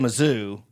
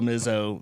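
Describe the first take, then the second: First: The word ends with an 'oo' vowel. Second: The word ends with an 'oh' vowel. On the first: This is how most people say it. "most people say Mizzou" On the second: Few people say it this way. "it's kind of like Izzo"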